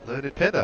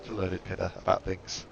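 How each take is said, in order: First: Name called out on a rising note. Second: Said in the usual way. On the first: Shown as a demonstration. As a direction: announce the name like a discovery. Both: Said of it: "I was told to talk to".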